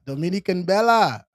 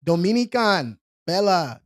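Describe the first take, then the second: First: Said in the usual way. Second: Dominican with an accented, open last vowel; slow accented take on Dominican Bella; put-on accent. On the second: Real, not acted. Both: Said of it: "put the accent on there".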